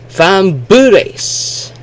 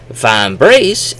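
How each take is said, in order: First: An extra vowel separates the B and R. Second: The B and R are joined with no vowel. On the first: "It would often sound like D U R or B U R" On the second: "instead of saying vambrace"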